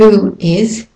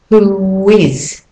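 First: The two words are said separately without linking. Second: A w sound links the two words.

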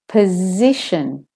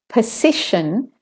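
First: The middle consonant is a buzzing Z. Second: The middle consonant is a hissing S. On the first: The speaker calls it right. "I say position" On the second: The speaker calls it wrong. "I don't say position"

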